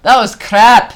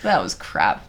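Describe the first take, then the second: First: High, loud Scottish outburst; mock Scottish accent. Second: Said in the usual way. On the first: Comic judges their show, loud mock Scottish. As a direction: blurt it in a put-on Scottish accent.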